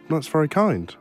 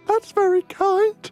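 First: It is said in his ordinary speaking voice. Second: It is said in an imitated, put-on voice.

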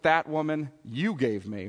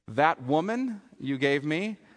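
First: The stress is on "you". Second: The stress is on "woman".

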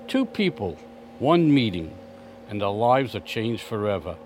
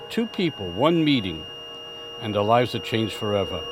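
First: It is read at a slower pace. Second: It is read at a faster pace.

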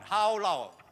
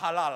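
First: The word sounds like English 'how long'. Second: The word sounds like 'ha-lal' with short vowels. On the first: The speaker calls it right. "It's how long" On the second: The speaker calls it wrong. "It's not pronounced as halal"

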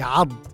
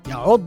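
First: The middle vowel is a. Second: The middle vowel is u. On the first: This is the standard classical form. The speaker calls it right. "أما في الفصحى فهي يعض" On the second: This is the colloquial form. The speaker calls it wrong. "يعض هذه عندنا في العامية"

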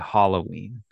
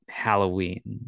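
First: The first syllable sounds like 'hollow'. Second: The first syllable sounds like 'hal'. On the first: "Like hollow" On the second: "like Hal"

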